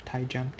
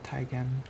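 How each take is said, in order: First: Taigem, second syllable like "jem"; soft-g pronunciation. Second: Taigam, second syllable "gam" with hard g; hard-g pronunciation. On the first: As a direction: say Taigem with a j sound. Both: Real, not acted. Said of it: "Is it Taigam or Taigem?".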